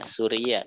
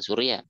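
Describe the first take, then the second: First: The word has three separate syllables. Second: The word has two syllables. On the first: The speaker calls it right. "Suria bukan Surya" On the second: The speaker calls it wrong. "bukan Surya"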